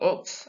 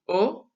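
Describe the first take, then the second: First: The word ends with a pronounced x sound. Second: The word ends in a vowel, x silent. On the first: The speaker calls it wrong. "It's not aux" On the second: The speaker calls it right. "Notice in that I didn't say the X"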